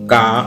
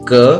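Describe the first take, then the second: First: The vowel after k is long and open. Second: The vowel after k is short and closed. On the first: The speaker calls it wrong. "कुछ लोग का, खा, गा, घा, अंगा ऐसे बोलते हैं। ऐसा उच्चारण नहीं करना चाहिए" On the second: The speaker calls it right. "यह इसका सही उच्चारण है।"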